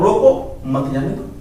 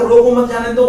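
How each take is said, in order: First: रोको set apart, then मत जाने दो falling away; pause after रोको. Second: रोको मत run straight on into जाने दो, kept high; रोको मत grouped together. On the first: Teacher showing the confusion, pause after रोको. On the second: Teacher showing the confusion, रोको मत said in one run. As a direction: say रोको मत as one unit, no break after रोको. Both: Shown as a demonstration. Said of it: "दोनों चीजों में बहुत बड़ा कन्फ्यूजन है".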